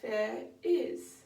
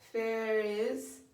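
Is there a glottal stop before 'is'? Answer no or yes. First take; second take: yes; no. First: A glottal stop separates the two words. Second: The words run together without a glottal stop. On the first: The speaker calls it right. "we can have there is, and that just adds some clarity" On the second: The speaker calls it wrong. "Instead of there is"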